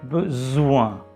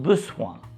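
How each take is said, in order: First: The middle consonant is a buzzing Z sound. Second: The middle consonant is a hissing S sound. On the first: The speaker calls it right. "it's besoin. Z" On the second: The speaker calls it wrong. "It's not besoin"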